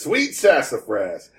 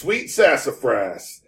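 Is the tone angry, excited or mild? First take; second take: excited; mild. First: It is said in an excited tone. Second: It is said with only mild annoyance.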